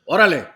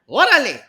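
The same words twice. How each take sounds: First: It is said at a fairly low pitch. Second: It is said at a medium pitch.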